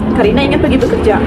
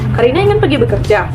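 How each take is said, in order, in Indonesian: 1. Nada turun di akhir. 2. Nada naik di akhir. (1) "intonasi turun" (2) "jika kita baca dalam intonasi naik"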